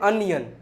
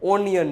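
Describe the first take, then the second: First: The first vowel sounds like 'uh'. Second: The first vowel sounds like 'oh'. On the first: The speaker calls it right. "ઓનિયન નહીં, અનિયન" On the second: The speaker calls it wrong. "ઓનિયન નો હોય મારા ભાઈ"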